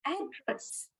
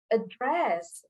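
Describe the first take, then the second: First: "address" with the first syllable stressed, AD-dress. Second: "address" with the second syllable stressed, a-DRESS; light start on "address", weight on DRESS. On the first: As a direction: hit the start of "address", let the end drop. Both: Shown as a demonstration. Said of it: "placing the stress on the wrong syllable".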